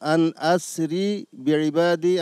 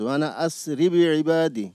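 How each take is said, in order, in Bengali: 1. প্রথম দুটি শব্দ আলাদা করে উচ্চারণ করা হয়। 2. প্রথম দুটি শব্দ একসাথে মিলিয়ে উচ্চারণ করা হয়।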